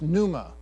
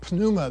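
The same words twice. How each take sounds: First: The word begins with an N sound. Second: The word begins with a P sound.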